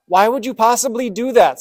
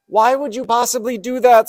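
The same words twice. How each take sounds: First: High, loud anguished cry; a dying frog screaming at the scorpion who stung him; frog's scream. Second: High, loud cry of betrayal; a dying frog screaming at the scorpion who stung him; frog's scream. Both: Acted. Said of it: "screamed the dying frog".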